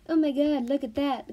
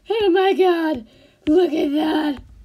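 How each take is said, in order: First: It is said in a calm, neutral way. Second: It is said in a wild, excited way.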